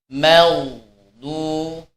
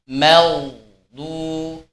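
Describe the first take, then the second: Both takes have the same delivery.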